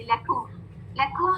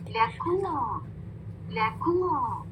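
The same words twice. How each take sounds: First: Short लेकुम with "o" instead of "oo"; unrounded mistake. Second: लेकुम with a long, falling "oo"; complete rounding. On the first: Teacher showing the sound without rounding, unrounded vowel. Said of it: "जब मैं rounding नहीं करूंगी ना". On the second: Teacher correcting the unrounded version, complete rounding. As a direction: round fully and stretch लेकुम. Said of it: "complete rounding और double ऊ sound". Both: Shown as a demonstration.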